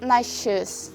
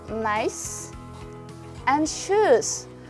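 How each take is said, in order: First: The words are linked; 'nice' ends in sh. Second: The words are separate; 'nice' ends in s. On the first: "when you connect them, the sound s becomes sh" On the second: "if you pronounce these two words individually"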